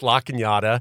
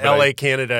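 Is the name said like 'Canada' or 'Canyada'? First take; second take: Canyada; Canada. First: The name is said with a 'nya' sound. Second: The name is said like the country Canada. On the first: The speaker calls it right. "yeah, it's La Cañada" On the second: The speaker calls it wrong. "Because it looks like Canada"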